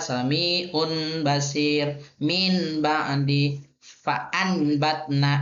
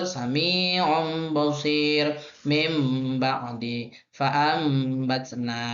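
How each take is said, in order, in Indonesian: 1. Bunyi n yang jelas terdengar sebelum setiap b. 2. Bunyi nasal m terdengar sebelum setiap b. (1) "salah dibaca ... itu salah ... izhar" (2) "Yang betul"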